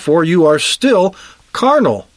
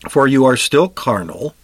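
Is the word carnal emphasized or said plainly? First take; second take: emphasized; plain. First: The word carnal is said with strong emphasis. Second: The word carnal is said without special emphasis.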